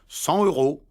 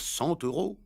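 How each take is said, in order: First: No linking sound joins the two words. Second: A linking t sound joins the two words. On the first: The speaker calls it wrong. "Ils disent" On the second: The speaker calls it right. "On doit dire"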